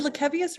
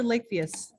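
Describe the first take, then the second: First: Lakevius said with four syllables, luh-KEV-ee-us; unsure pronunciation. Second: Lakevius said with three syllables, LAKE-vee-us; alternative pronunciation. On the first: Host checking an absent panelist's name, Lakevius as luh-KEV-ee-us. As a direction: open Lakevius with a short "luh", then KEV. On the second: Host offering another reading of a name, Lakevius as LAKE-vee-us. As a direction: start Lakevius like the word "lake". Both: Shown as a demonstration. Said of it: "Is it Lakevius or Lakevius".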